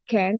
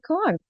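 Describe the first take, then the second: First: It is said with an American accent. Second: It is said with a British-style accent. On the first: "you say can't" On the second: "I say can't"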